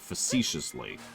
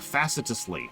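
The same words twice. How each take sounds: First: It is pronounced the usual spoken way. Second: It is pronounced following its spelling. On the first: The speaker calls it right. "It's actually facetiously" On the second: The speaker calls it wrong. "is how it's spelled"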